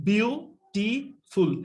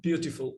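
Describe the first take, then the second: First: বিউটিফুল very slowly, in three separate beats: বিউ, টি, ফুল; syllable by syllable. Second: Said in the usual way. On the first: Shown as a demonstration. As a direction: break বিউটিফুল into three drawn-out syllables with clear gaps. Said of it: "তাহলে এই তিনটা নিঃশ্বাসকে বলা হবে". (বিউটিফুল শব্দটা খুব ধীরে, তিন ভাগে ভেঙে: বিউ, টি, ফুল) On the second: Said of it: "তাহলে একসাথে কি হয়".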